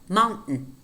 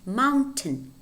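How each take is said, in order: First: The T is not clearly pronounced in the word. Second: The T is clearly pronounced in the word. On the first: "But in American English, it's normally" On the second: "We could say"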